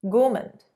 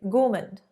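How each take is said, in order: The two takes are said the same way.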